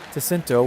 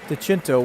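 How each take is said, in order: First: The name is pronounced the Americanized way. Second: The name is pronounced the Italian way. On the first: "DeCinto would be the Americanized version" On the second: "DeCinto would be the Italian one"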